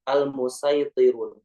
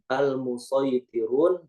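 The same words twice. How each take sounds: First: The s sound is light and plain. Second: The s sound is heavy and emphatic. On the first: "boleh menggunakan sin" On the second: "dibaca menggunakan sod"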